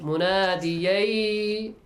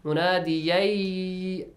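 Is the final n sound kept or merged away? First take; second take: merged; merged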